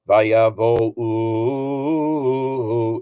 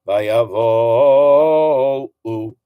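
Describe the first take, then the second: First: The stress falls on the final u. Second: The stress falls on vo, u trailing. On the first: The speaker calls it wrong. "it really shouldn't be vayavo u" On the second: The speaker calls it right. "put the accent on the O before the U"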